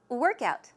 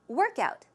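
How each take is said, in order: No difference in how they are said.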